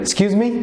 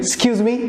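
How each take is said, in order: Both takes have the same delivery.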